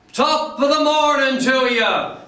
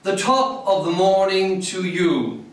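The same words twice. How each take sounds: First: High, hearty Irish greeting called out; rousing top-of-the-morning holler; gusto and spirit. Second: Measured recital of a quoted shout, slightly raised pitch; restrained call from an old English poem; English poem reading. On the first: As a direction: sing it out with spirited gusto, pitched way up. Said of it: "Spoken with gusto and spirit". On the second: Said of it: "It doesn't sound the same". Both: Acted.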